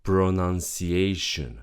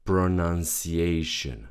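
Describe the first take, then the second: The two takes are said the same way.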